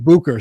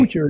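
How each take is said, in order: First: The middle consonant is a 'k' sound. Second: The middle consonant is a 'ch' sound. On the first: The speaker calls it right. "So there's a K" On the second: The speaker calls it wrong. "I mispronounced your last name"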